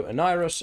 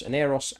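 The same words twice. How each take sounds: First: "Aniros" with a long "eye" in the middle, uh-NYE-ross. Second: "Aneros" with "air" in the middle, uh-NAIR-oss. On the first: Streamer trying out a name, "Aniros" said uh-NYE-ross. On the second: Streamer offering another reading of a name, "Aneros" said uh-NAIR-oss. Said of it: "so Aniros". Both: Shown as a demonstration.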